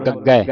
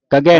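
First: ਗੱਗੈ with a held double g and open ai; tight doubled consonant. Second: ਗੱਗੈ loosened to "gage", single g; untightened wrong reading. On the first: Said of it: "ਅਧਿਕ ਲਾ ਕੇ ਕੱਸ ਕੇ ਬੋਲਣਾ". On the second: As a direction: say ਗੱਗੈ loudly with an undoubled g, like "gage". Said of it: "ਗੱਗੈ ਨਹੀਂ ਪੜ੍ਹਨਾ". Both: Shown as a demonstration.

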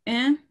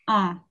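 First: Un with the N heard at the end; un with sounded N. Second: Un as an open nasal vowel, no N. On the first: Teacher warning about un, the N sounded. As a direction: say un unguarded, closing on an N. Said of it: "just being careful with the". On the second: Teacher correcting the class, un through the nose. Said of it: "come in through the, the nose". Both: Shown as a demonstration.

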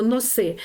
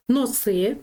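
First: "носи" as carry, last syllable stressed. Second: "носи" as noses, first syllable stressed. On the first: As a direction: lean on the И of "носи". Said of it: "Взяти щось". (наголос на И у слові «носи») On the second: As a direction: lean on the О of "носи". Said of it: "носики". (наголос на О у слові «носи») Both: Shown as a demonstration.

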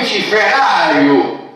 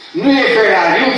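First: Ferariu said slowly and carefully, as the right form; slow, clear model of Ferariu; correct pronunciation. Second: Ferariu with the stress the presenter uses, the form to reject; wrong pronunciation. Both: Shown as a demonstration.

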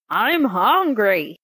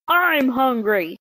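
First: Slow, heavy growl. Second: A hint of a raised genie shout. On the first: Acted. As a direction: growl it like a hungry genie. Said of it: "he growled". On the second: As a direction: shout it a bit higher. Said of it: "shouted the genie".

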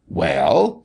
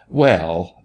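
First: Mildly snapped, rising question. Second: Drawled. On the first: Doctor stopping short at Martha's plea, mildly snapped. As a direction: cut in with a mild snap. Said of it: "snapped the doctor". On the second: Doctor relenting, rubbing his nose, mildly drawled. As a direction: let the word out as an easy drawl. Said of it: "the doctor drawled". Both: A narrator's reading.

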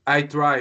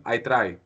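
First: Said in the usual way. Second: "I try" in a Greek accent; lower-pitched, Greek-accented "I try". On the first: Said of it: "if you say "I try". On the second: Shown as a demonstration. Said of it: "in totally Greek accent".

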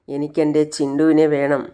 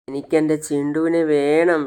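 First: Lightly voiced tearful child, a bit louder; a little girl's mild crying plea. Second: Put-on slow, louder tearful child's plea; crying. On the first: Daughter pleading for her lost dog, mildly tearful. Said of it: "കരഞ്ഞുകൊണ്ട് പറയാണ്". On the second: Shivani refusing her mother, slow mild crying. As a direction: drag the words out through mock tears. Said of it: "Shivani കരഞ്ഞുകൊണ്ടിരിക്കുകയാണ്". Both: A narrator's reading.

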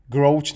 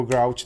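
First: First guess at saying "Grouch"; "Grouch" tried out one possible way; alternate pronunciation. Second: Second guess at saying "grouch"; "grouch" tried out the other possible way; alternate pronunciation. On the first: Gamer unsure how a part name reads, trying "Grouch". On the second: Gamer unsure how a part name reads, offering another "grouch". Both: Shown as a demonstration. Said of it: "nevím, jak se to čte".

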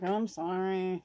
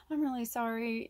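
First: Dismissive mock apology; lightly voiced grudging kid; insincere sorry. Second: Softer, heartfelt apology; mean it this time; gently sincere sibling apology; sincere sorry. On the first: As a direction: toss off a fake sorry. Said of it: "you're not really sorry". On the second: Retold or imitated. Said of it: "if you're really sorry".

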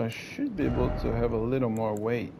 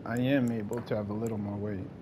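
First: "should" leaned on as a tentative claim; "should" is the prominent word; stress on should. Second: "am" stressed as a self-correction; "am" is the prominent word, the rest softer. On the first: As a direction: put the weight on "should". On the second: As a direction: lean firmly on "am", then let the rest drop. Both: Real, not acted. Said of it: "Not I should".

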